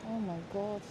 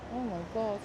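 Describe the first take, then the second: No difference in how they are said.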